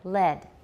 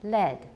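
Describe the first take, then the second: Both takes have the same delivery.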